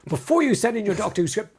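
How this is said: It is read in a really angry voice.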